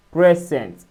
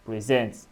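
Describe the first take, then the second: First: "present" with PRE punched louder and higher; stress on first syllable. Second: "present" stressed on the second syllable, pre-SENT. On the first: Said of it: "where P R E S has the stress syllable". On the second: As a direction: lean on SENT in "present", light first syllable. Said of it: "to this is option B". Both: Shown as a demonstration.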